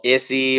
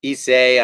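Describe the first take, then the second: First: "Issei" said as ISS-ee; tentative pronunciation. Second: "Issei" said as ee-SAY; alternative pronunciation. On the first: Streamer guessing at a Japanese company's name, "Issei" pronounced ISS-ee. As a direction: say "Issei" ending in an ee sound, ISS-ee. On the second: Streamer trying a Japanese company's name another way, "Issei" pronounced ee-SAY. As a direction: say "Issei" ending like the word say. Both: Shown as a demonstration. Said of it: "I don't know how to pronounce them".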